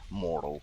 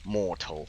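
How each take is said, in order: First: The T is softened in American style. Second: The T is pronounced crisply in British style. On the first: "the American one is mortal" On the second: "the British one, is mortal with the T accentuated"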